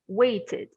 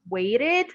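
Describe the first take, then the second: First: The middle T is a clear T sound. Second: The middle T sounds like a quick R. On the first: "and a T sound" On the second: "an R, R sound"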